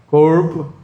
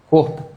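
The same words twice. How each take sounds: First: It is said in a goiano accent. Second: It is said in a manezinho accent. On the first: "O goiano?" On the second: "O manezinho?"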